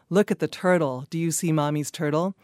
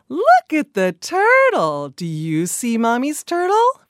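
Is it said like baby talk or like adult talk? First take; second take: adult talk; baby talk. First: It is plain adult talk with flatter pitch. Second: It is lively baby talk with varied pitch.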